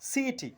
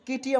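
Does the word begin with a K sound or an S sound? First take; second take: S sound; K sound. First: The word begins with an S sound. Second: The word begins with a K sound. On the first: The speaker calls it right. "আমরা বলছি সিইটি" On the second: The speaker calls it wrong. "কিটি আমরা বলছি না"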